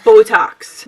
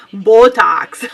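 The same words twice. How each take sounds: First: Accented Botox. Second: Said in the usual way. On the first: Real, not acted. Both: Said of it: "Why did I say that with such an accent?".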